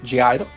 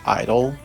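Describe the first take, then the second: First: The name starts with a G sound. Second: The name starts without a G sound. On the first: The speaker calls it wrong. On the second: The speaker calls it right.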